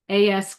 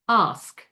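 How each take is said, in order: First: The vowel is a short, flat A sound. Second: The vowel is a long, open 'ah' sound. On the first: "But if it's" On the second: "it becomes"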